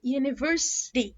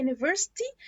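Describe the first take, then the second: First: "university" with a softened T, close to D; slow "university" with a flapped last T; native-speaker pronunciation. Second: "university" with a clear T in the last syllable; "university" with a real T, rising at the end; common pronunciation. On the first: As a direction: slowly say "university" ending near "dee". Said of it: "بس الأصح منها واللي أنا أبقى native speaker". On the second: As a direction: say "university" ending in a crisp "tee". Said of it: "ناس كتير بتقولها university". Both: Shown as a demonstration.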